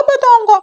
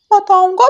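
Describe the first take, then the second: First: Even higher, louder falling taunt; louder taunting parrot. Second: High, loud singsong taunt; taunting parrot. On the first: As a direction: push the tease up a notch. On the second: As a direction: tease her with a rising call. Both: Acted.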